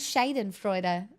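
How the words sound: It is said with an Australian-style pronunciation. "It's more Australian that way"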